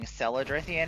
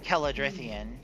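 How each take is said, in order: First: The name begins with a soft S sound. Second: The name begins with a hard K sound. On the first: The speaker calls it wrong. "They were saying Celadrithian" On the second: The speaker calls it right. "not pronouncing it in the Gaelic way"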